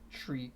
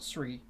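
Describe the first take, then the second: First: The word begins with an sh sound. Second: The word begins with a plain s sound. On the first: The speaker calls it right. "Some people pronounce it with a H" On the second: The speaker calls it wrong. "Not Sri"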